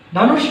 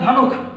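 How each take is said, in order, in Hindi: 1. यह शब्द 'sh' ध्वनि पर खत्म होता है। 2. यह शब्द 'kh' ध्वनि पर खत्म होता है। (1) "धनुष का उच्चारण" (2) "ख में बदल जाता है मूर्धन श"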